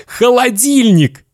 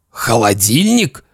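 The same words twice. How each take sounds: First: Put-on very high, happy child voice; boy's proud answer. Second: Disbelieving echo in an adult voice; stunned father. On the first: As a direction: announce the prize like a little boy. Boy proudly names the prize. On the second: Acted. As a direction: repeat it as a dazed dad. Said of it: "Папа как-то странно задрожал".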